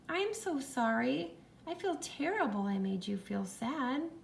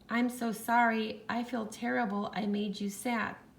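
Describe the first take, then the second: First: It is read in a sorry, apologizing tone. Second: It is read in a plain, neutral tone.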